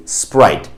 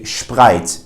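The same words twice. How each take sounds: First: Said in the usual way. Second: SPRITE as "shprite"; wrong German sh. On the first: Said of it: "you would say". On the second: Shown as a demonstration. Teacher shows the mistake to avoid, sh in SPRITE. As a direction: start SPRITE with a German shp. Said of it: "you wouldn't say".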